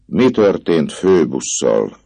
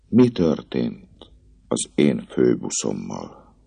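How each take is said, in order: First: Louder, slow, icy demand; the girl presses him, cold and insistent; cold repeat. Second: Said in the usual way. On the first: Acted. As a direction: ask again, cold as stone. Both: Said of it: "ismételte hidegen a leány".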